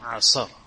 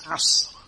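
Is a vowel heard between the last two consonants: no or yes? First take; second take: yes; no. First: A vowel is added after the middle consonant. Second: The middle consonant has no vowel after it. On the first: The speaker calls it wrong. "not asr" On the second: The speaker calls it right. "It's asr"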